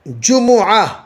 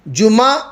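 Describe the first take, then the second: First: The m is followed by an u vowel. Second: The m is followed by an a vowel. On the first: "जम्मा भी दो" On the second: "मीम के फतह के साथ कहते हैं"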